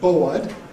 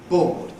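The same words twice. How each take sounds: First: The vowel glides as a centering diphthong. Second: The vowel is a single open vowel. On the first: "in Cockney, an opening diphthong, a centering diphthong" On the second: "a not so close monophthong"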